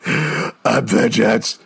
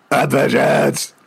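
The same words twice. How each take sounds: First: Slow, drawn-out mock Batman growl; mock Batman line. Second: A second slower take, weight on vengeance; mock Batman line. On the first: Reading out a Batman catchphrase, slow mock gravel. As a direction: drag out I'm vengeance like a brooding hero. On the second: Trying the Batman line again, slow and heavy. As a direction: lean on the word vengeance, brooding hero. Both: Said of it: "then say your vengeance".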